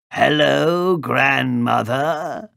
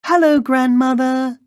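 First: Wolf calling out, raised and drawn out; growling wolf. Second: Put-on very high, loud little-girl call. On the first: Wolf at grandmother's door poses as the girl, growling. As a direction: growl a long, slow greeting. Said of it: "growled the wolf". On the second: Girl calls at grandmother's door, high and loud. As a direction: call out in a piping child's voice. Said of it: "she called". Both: A narrator's reading.

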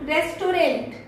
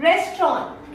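First: "रेस्टोरेंट" in three syllables, res-to-rent; common mispronunciation. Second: "रेस्टोरेंट" shortened to res-tron; correct pronunciation. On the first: Trainer showing learners' habit, mispronunciation. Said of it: "यही बोलते हो ना". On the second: Trainer correcting learners, correct pronunciation. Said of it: "इसे हम लोग बोलते हैं". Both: Shown as a demonstration.

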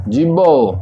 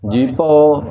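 First: ਜੀਭੋ as one word with b, jib-bao; joined pronunciation. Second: ਜੀਭੋ with a hard p sound, jip-pao; p in place of b in ਜੀਭੋ; wrong pronunciation demo. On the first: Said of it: "ਜੀਭੋ ਉਚਾਰਨ ਕਰਨਾ ਹੈ ਇਸ ਦਾ". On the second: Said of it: "ਇਸ ਪ੍ਰਕਾਰ ਇਸ ਦਾ ਉਚਾਰਨ ਨਹੀਂ ਕਰਨਾ". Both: Shown as a demonstration.

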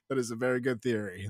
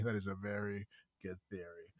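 First: Said in the usual way. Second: Quiet echo. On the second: Shown as a demonstration.

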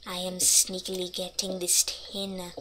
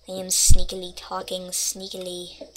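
First: Softer, hushed sneaky voice. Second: Said in the usual way. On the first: Shown as a demonstration. A player sneaking past mobs, hushed and sneaky. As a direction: keep it down like you're creeping past.

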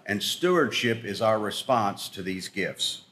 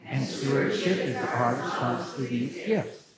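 First: Slow, deliberate line to repeat; slow lead line. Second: Congregation repeats together; group echo, lower and softer; shadowing. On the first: Shown as a demonstration. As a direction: spell it out slowly for the room. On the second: Real, not acted. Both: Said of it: "please repeat after me".

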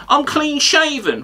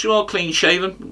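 First: High, drawn-out parroting of a rival; mocking quote. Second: Said in the usual way. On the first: Comic quoting the pundit's own claim, mocking high drawl. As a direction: throw the words back, higher and slower. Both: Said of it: "The next one you mentioned is".

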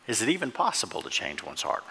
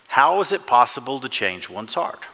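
First: Doubting question hinged on "even"; stress on even. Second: Said in the usual way. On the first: Real, not acted. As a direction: lift "even", then let the rest fall away.

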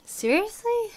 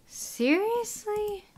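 First: Very high, loud quick "Seriously?"; loud incredulous squeal; outraged disbelief. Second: Very high, slow drawn-out "Seriously?"; disbelieving squeal; stunned disbelief. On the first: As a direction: bark out the shock. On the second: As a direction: stretch it up in shock. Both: Real, not acted. Shocked at migrant numbers.

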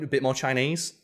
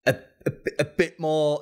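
First: Fluent, unbothered question with a rise at the end; matter-of-fact question. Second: Halting, higher-pitched stammer; awkward hesitation. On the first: Actor helping out the awkward director, matter-of-fact. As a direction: finish their sentence for them, easily. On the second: Casting director approaching an actor on set, awkwardly hesitant. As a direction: stumble over the words, unable to finish. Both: Retold or imitated.

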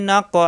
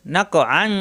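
First: নাকআ ending in a drawn-out a; নাকআ read as a pause form with a long final a; stop with long a. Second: নাকআন with the final n sounded; নাকআন joined to the next word; joined reading. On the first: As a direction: end নাকআ on a long open a, no n. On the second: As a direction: carry নাকআন on with its n. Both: Shown as a demonstration. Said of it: "যদি মিলে পড়ি".

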